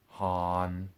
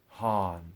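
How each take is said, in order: First: The pitch stays level in the middle. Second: The pitch falls from the middle. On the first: "first as a middle tone" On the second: "then as falling tones"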